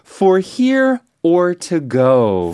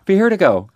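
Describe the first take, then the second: First: It is said slowly and clearly. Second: It is said fast and run together.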